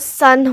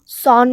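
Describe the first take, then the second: First: The vowel sounds like 'uh'. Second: The vowel sounds like 'aw'. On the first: The speaker calls it right. "तो सन होता है" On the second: The speaker calls it wrong. "वो सॉन नहीं होता"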